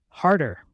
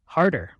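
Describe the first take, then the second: First: A bigger fake moan; slightly louder playful moan; louder mock moan. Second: Lightly acted fake moan; a hammed-up moan as a prank; playful fake moan, barely voiced; mock moan. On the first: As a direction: ham the moan up more as the prank builds. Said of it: "I moaned even louder than the first time". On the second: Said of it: "I moaned out realistically". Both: A narrator's reading.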